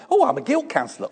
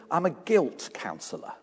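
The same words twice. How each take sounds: First: High, quick, breezy "Oh, I'm a guilt counsellor"; breezy chirpy answer. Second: Dry quiet answer. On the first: Pastor answers a stranger at the supermarket, high and breezy. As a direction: toss it off brightly and fast. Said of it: "Try that sometime". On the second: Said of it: "He says". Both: Retold or imitated.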